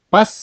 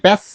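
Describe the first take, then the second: First: "পাস" said with an open aa vowel; slip with open "a". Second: "প্যাস" said with a flat ae vowel; corrected vowel. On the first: Teacher misreading for learners, "পাস" with an aa vowel. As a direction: say "পাস" with a long aa, as in father. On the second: Teacher correcting the slip for learners, "প্যাস" with an ae vowel. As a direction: say "প্যাস" with ae as in cat. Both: Shown as a demonstration. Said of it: "ah, sorry, প্যাস".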